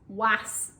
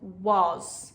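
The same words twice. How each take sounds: First: The word ends with an s sound. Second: The word ends with a z sound.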